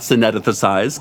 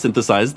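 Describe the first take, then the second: First: "synethesized" with an extra syllable, sin-ETH-uh-sized; mispronunciation. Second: "synthesized" said right, SIN-thuh-sized; correct pronunciation. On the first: Narrator mocking his own slip, "synethesized" with the extra syllable. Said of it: "'cause that's not a word". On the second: Narrator correcting his slip, "synthesized" said properly. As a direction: say "synthesized" cleanly, three syllables. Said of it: "that's the word". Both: Shown as a demonstration.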